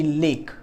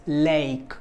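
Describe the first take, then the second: First: LAKE with a short, single pure e, no glide; short pure vowel. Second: LAKE with two vowels, e gliding into i; gliding diphthong. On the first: Teacher showing students the wrong vowel, short glide-less LAKE. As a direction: say LAKE clipped to one vowel, like "lek". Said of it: "It's not gonna be lake". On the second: Teacher showing students the right diphthong, drawn-out gliding LAKE. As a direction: stretch LAKE through an ay-ee glide. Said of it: "it's a combination of two vowels". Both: Shown as a demonstration.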